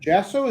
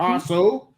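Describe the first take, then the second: First: The name begins with a J sound. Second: The name begins with an H sound. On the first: The speaker calls it wrong. "Is it really J?" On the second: The speaker calls it right. "That we learn how to s- pronounce your name properly"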